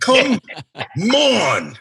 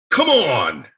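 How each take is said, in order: First: Loud, high, split into two separate cries; drawn-out exasperated outburst. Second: Loud, high exclamation of disbelief; exasperated outburst. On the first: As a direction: break COME and ON apart with a big pause. Same exclamation, broken in two. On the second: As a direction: cry out at the screen in exasperation. Exasperated at computer while reading. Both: Retold or imitated.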